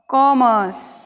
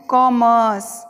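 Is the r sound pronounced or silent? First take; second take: silent; silent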